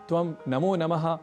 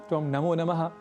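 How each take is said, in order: No difference in how they are said.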